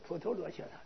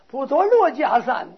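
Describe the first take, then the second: First: The third syllable is pronounced 'qie'. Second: The third syllable is pronounced 'jia'. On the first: The speaker calls it right. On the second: The speaker calls it wrong.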